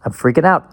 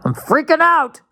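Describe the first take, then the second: First: A touch louder, half-joking alarm; fake-worry about getting old; mock panic. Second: Much higher and louder hammed-up panic; mock panic shriek. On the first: Host mocks his own slip, mildly panicked. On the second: Host hams up panic over his word slip, shrieking. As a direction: shriek it like a joke meltdown. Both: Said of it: "Oh God, I'm getting old".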